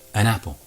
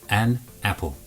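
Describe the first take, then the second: First: The two words blend into one unit. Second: The two words are said separately. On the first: The speaker calls it right. "When we're speaking naturally, it becomes an apple. One word, one sound unit" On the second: The speaker calls it wrong. "We don't speak like that"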